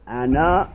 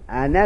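First: The word ends with a long final vowel. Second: The word ends with a short final vowel. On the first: This is the form used when pausing. "این در حال وقف است" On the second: This is the form used in connected speech. "در حال وصل انا می خوانیم به فتح نون، دیگه الف نداره"

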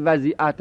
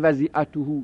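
First: The vowel before the final -hu is a. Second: The vowel before the final -hu is u. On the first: The word is an object of accompaniment. The speaker calls it wrong. "این حق نداره بگید وضیعته، ... نصبش بدید" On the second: The word is a subject joined by a conjunction. The speaker calls it right. "به رفع بخونید"

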